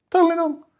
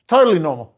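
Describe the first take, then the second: First: Pitched way up, mocking; sarcastic high squeak of it; high mocking repeat. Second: Said in the usual way.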